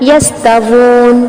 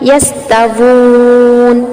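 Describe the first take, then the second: First: The long vowel is held for two beats. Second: The long vowel is held for four beats. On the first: "सिर्फ दो हरकत के बराबर अब लंबा करते हुए" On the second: "ये हो गया तवस्सुत।"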